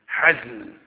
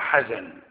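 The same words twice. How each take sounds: First: The z sound has no vowel after it. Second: The z sound is followed by a vowel. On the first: The speaker calls it right. "لا بسكون الزاي" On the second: The speaker calls it wrong. "مو حزن"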